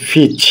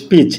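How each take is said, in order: First: ফিচ with a puff of air on the first sound; aspirated p in peach. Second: Said in the usual way. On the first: Shown as a demonstration. Teacher correcting students' peach to an aspirated ফিচ. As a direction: breathe out on the p of ফিচ. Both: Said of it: "এটা হচ্ছে ফিচ".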